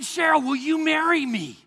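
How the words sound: It is said with nervous, passionate intensity. The request comes from deep desire. The speaker calls it right. "you could also hear the passion"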